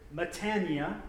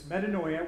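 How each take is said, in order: First: The word is said in a Southern-sounding way. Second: The word is said in the standard way. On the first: The speaker calls it wrong. "one Greek Orthodox priest pronounced it metania, which made me wonder if he was from like Alabama or Georgia" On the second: The speaker calls it right. "But it's metanoia"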